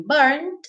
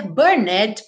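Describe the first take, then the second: First: BURNED in one syllable; silent E. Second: BURNED misread as bur-ned; wrong two-syllable "burned"; extra syllable. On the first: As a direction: say "burned" with no E, ending in D. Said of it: "é mudo, certo?". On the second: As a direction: sound the E in "burned". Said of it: "Você não vai dizer". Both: Shown as a demonstration.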